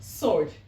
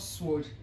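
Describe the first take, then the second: First: The w sound is silent. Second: The w sound is pronounced. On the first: The speaker calls it right. "this W here is silent" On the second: The speaker calls it wrong. "and not sword"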